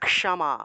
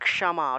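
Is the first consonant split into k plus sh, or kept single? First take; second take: k plus sh; k plus sh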